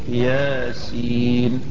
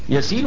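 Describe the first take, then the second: First: It is said as two separate letter names. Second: It is said quickly as one ordinary name. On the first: It is read as two letters, not a name. The speaker calls it right. "شوف حرف وحرف" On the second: It is read as a personal name. The speaker calls it wrong. "ياسين والقرآن الحكيم تقبلها منه؟"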